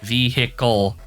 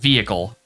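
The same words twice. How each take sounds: First: The word is said with all three syllables. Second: The word is said with one syllable dropped.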